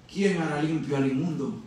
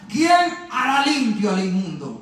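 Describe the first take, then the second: First: Low, soft repeat of the question; hushed question. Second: Slow, full-voiced scripture question; proclaimed question. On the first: Acted. Preacher letting Job's question sink in, hushed question. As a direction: drop down and ask it gravely. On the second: Preacher reading Job's question to the congregation, proclaimed question. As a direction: put the question out to everyone, deliberately. Reads question, repeats it softly later.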